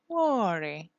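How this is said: The pitch falls at the end.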